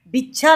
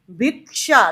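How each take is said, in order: First: भिक्षा said as bhichha with a ch sound; भिक्षा with the k dropped, like bhichha; wrong bhichha for भिक्षा. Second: भिक्षा said bhik-sha with a clear k and sh; भिक्षा with the k and sh both heard; right way. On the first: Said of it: "भिक्षा नहीं बोलते". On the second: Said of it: "क भी सुनाई दे रहा है और सा भी". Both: Shown as a demonstration.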